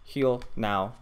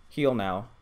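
Both takes have the same delivery.

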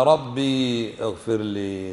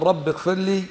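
First: Slow, ربي with a drawn-out ee before اغفر; lower, stretch the ya of ربي; long ya form. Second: Higher, رب with a short i into اغفر; short vowel form. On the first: Teacher offers students the second form, long-vowel pronunciation. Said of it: "ولا". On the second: Teacher asks students to compare two forms, short-vowel pronunciation. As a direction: clip the ending of رب, no long ya. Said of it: "هل تقول". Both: Shown as a demonstration.

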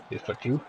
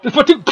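First: Said in the usual way. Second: High, loud triumphant This foot, too!; gleeful taunt. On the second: Acted. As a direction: shout it like a cheeky cartoon kick. Teasing opponent with kicks, loud take.

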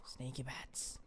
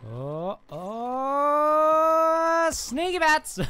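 First: Very soft, low playful whisper; sneaky whisper. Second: High, loud drawn-out cry; excited yell. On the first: Player sneaking up on enemies as a bat, whispering. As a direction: whisper it, creeping up unnoticed. Creeping as bat character in game. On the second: Player springing the sneaky bat attack, yelling high. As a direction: burst out of stealth with a long whooping shout. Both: Pretend.

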